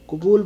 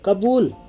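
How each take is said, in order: First: The first vowel is a u sound. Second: The first vowel is an a sound. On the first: This is the Arabic form of the word. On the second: This is the Hindi form of the word.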